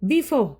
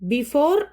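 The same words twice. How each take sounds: First: The final r softens into a breathy h. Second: The final r is pronounced fully. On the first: The speaker calls it right. "ആ ആർ ഇ അവിടെ ഒരു എച്ച് ആയിട്ട് മാറുന്നു" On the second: The speaker calls it wrong. "Before എന്ന് പറയരുത്"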